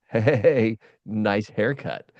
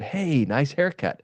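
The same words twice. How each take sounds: First: It is said in a sarcastic, mocking tone. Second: It is said in a sincere, friendly tone. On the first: The hair is really a mess. "the tone that I heard supported my quote truth that this is a, a mess on top of my head" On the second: The compliment is meant genuinely. "I had a friend who said"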